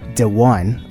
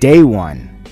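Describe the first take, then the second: First: The first word is said like 'dee'. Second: The first word is said like 'day'. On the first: The speaker calls it wrong. "Oops, that's not the right pronunciation" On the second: The speaker calls it right. "but it's actually pronounced Day One"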